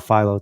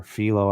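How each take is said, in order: First: Philo with a long I, like "file-oh"; Philo as FY-loh. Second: Philo with an "ee" in the first syllable; Philo as FEE-loh. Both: Shown as a demonstration. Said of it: "don't know how to pronounce it".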